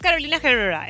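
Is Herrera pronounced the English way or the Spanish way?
English. Herrera is pronounced with an English-style sound. The speaker calls it wrong. "no es Carolina Herrera"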